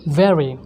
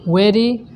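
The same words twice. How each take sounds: First: The first sound is made with lip on teeth. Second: The first sound is not made with lip on teeth. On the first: The speaker calls it right. "the pronunciation of the word V E R Y E is very" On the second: The speaker calls it wrong. "It's not very"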